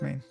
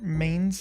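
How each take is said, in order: First: The word ends without any s sound. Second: The word ends with an audible s sound. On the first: The speaker calls it right. "pretty sure it's just main" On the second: The speaker calls it wrong. "they actually pronounce the S"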